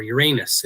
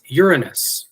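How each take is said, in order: First: "Uranus" as yuh-RAY-nus, middle syllable stressed; alternative pronunciation. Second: "Uranus" as YOOR-uh-nus, first syllable stressed. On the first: Lecturer offers students another option, "Uranus" pronounced yuh-RAY-nus. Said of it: "if you prefer". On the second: Lecturer names the sky god, "Uranus" pronounced YOOR-uh-nus. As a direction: say "Uranus" with a YOOR start and weak middle. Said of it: "or Uranus, if you prefer". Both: Shown as a demonstration.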